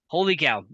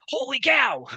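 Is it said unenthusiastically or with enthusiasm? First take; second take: unenthusiastically; with enthusiasm. First: It is said flatly, without enthusiasm. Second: It is said excitedly, with enthusiasm.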